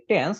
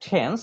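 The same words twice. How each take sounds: First: Said in the usual way. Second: "টেন্স" opened on an aspirated ঠ sound. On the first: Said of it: "যেটা আমরা বলি টেন্স". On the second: Shown as a demonstration. Teacher correcting how students say tense, "টেন্স" with aspirated ঠ. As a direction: puff the first T of "টেন্স", like "ঠেন্স". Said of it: "right উচ্চারণ হচ্ছে".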